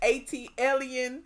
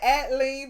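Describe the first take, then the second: First: The start is said as separate letters A-T-L. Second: The start is blended into one quick syllable. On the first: The speaker calls it right. "but the pronunciation is ATLien" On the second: The speaker calls it wrong. "You would pronounce it Atleen"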